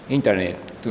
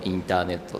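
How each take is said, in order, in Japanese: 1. 英語のネイティブの発音で言われている。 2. 日本語のカタカナ語の発音で言われている。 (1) "外国の方はインターネットみたいになる" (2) "カタカナで日本語インターネットって喋る"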